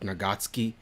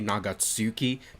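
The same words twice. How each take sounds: First: The u after ts is silent. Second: The u after ts is clearly pronounced. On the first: The speaker calls it right. "the U in the Japanese words is like silent, like Nagatsuki is how I should say" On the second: The speaker calls it wrong. "people said I shouldn't say Nagatsuki"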